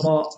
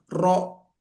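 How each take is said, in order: First: The vowel is open with the lower jaw pushed forward. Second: The vowel is rounded with the lips pushed forward. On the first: The speaker calls it right. "rahang bagian bawah, ro. Jadi kayak gini" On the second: The speaker calls it wrong. "bukan mulut kita yang maju, bukan ro, bukan seperti itu"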